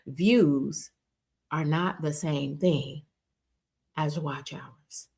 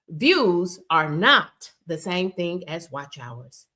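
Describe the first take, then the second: First: It is said more slowly. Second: It is said at a normal pace.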